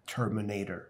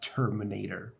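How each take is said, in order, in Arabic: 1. تُقال بلهجة إنجليزية مبالغ فيها. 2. تُقال بلهجة إنجليزية مبالغ فيها.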